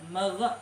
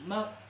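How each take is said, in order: First: The final consonant is released with a bounce. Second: The final consonant stays still without bouncing. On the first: The speaker calls it wrong. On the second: The speaker calls it right. "mag ini tidak dipantulkan"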